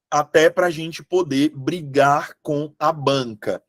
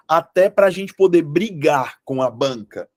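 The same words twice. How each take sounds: First: "Até pra gente poder brigar com a banca" spaced out, with small breaks before the last words; deliberate repetition. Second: Said in the usual way. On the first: Shown as a demonstration. Teacher repeating the point to students, deliberately spaced out.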